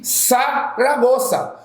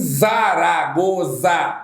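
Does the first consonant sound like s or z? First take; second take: s; z. First: The word begins with a hissing s sound. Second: The word begins with a buzzing z sound. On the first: The speaker calls it right. "Existe Saragoça" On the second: The speaker calls it wrong. "não há que se falar em Zaragoza. Não existe isso"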